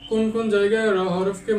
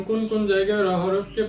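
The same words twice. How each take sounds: The two takes are said the same way.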